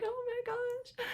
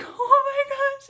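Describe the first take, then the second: First: Very high, soft, drawn-out awe; hushed amazement. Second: Very high, loud, drawn-out squeal; overwhelmed amazement. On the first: Mother retelling the first heartbeat, hushed amazement. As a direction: imitate a tiny squeak of wonder. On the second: Mother retelling the second heartbeat, overwhelmed amazement. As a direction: re-enact a big squealed reaction. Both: Retold or imitated.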